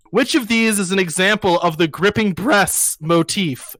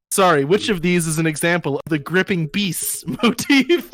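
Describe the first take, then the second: First: "breasts" said in place of "beasts", with an R; misread word. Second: "beasts" said properly, long EE and no R; corrected word. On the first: Proctor reading a competition question aloud, misreading "breasts". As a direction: read the question out with "breasts" slipped in. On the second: Proctor rereading after being corrected, "beasts" pronounced properly. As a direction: reread the question with "beasts" put right. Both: Retold or imitated. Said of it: "try that word again".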